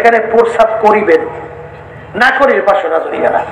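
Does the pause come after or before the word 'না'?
before. The pause comes right before 'না'.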